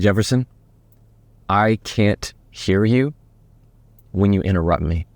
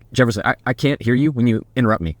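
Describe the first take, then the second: First: It is said slowly and calmly after a breath. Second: It is said tightly and tensely, with a stumble. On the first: The speaker is confident and in control. The speaker calls it right. "we're going to take a big breath and say it slowly" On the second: The speaker is not in control. The speaker calls it wrong. "If you say it really tight"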